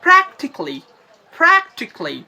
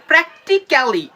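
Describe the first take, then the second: First: প্র্যাকটিক্যালি as "PRAK-tik-li"; correct pronunciation. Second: প্র্যাকটিক্যালি as "prek-ti-ka-li"; four separate syllables in প্র্যাকটিক্যালি; wrong pronunciation. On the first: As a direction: drop the "ka" from প্র্যাকটিক্যালি. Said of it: "তাহলে কি বলবেন". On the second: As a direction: clear "ka-li" at the end of প্র্যাকটিক্যালি. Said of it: "এই সাউন্ডটা করবেন না". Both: Shown as a demonstration.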